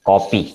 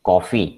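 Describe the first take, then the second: First: The middle consonant is a p sound. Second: The middle consonant is an f sound. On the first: The speaker calls it wrong. "ഫ് സൗണ്ടിന് പകരം കോപ്പി എന്ന് പറയും" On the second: The speaker calls it right. "ഫ് എന്നുള്ള സൗണ്ടിന്റെ അടുത്ത്"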